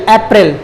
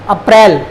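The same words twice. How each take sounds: First: अप्रैल said English-style as "ep-rel"; English pronunciation. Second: अप्रैल said Hindi-style as "up-rail"; Hindi pronunciation. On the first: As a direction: start अप्रैल on an open "e" vowel. English name before the Hindi one. (अप्रैल का अंग्रेज़ी उच्चारण, "एप्रिल") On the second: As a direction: start अप्रैल on a short "a". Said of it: "Hindi में बोलते हैं". (अप्रैल का हिंदी उच्चारण, "अ-प्रैल") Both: Shown as a demonstration.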